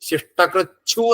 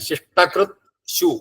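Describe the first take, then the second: First: The t and 'shu' merge into 'chchhu'. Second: A clear t sound is followed by 'shu'. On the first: The two words are joined together. "ശിഷ്ടകൃച്ഛു എന്നാവും" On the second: The two words are kept apart. "ത് ശു കൂടി വരുമ്പോഴവിടെ ഛു എന്നായി മാറും"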